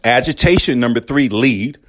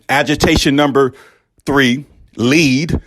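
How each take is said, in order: First: It is said firmly with moderate force. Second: It is said forcefully with a pleading edge. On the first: "pretty, you know, aggressive" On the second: "more pleading aggressive"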